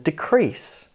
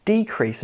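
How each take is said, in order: First: Decrease slowly with CREASE strong; deCREASE, the verb form; stress on second syllable. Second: Decrease slowly with DE strong; DEcrease, the noun form; stress on first syllable. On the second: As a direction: hit DE in decrease. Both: Shown as a demonstration. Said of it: "Can you hear the difference?".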